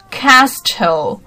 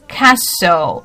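First: An extra middle consonant sound is pronounced. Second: The silent middle consonant is dropped. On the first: The speaker calls it wrong. "很多人会把它念成什么Castle" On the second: The speaker calls it right. "其实它是念Castle 啊"

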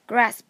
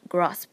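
First: It is said with an American accent, vowel as in cat. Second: It is said with a British accent, vowel as in father. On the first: "美音读成grasp" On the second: "英音中则读成grasp"

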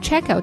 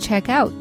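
First: The stress falls on check. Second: The stress falls on out. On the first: It is a noun. "Check out 退房的动词check out 它的名词形式" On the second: It is a verb phrase. "我想退房"

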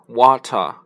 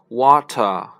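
First: The middle consonant is a clear t. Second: The same.

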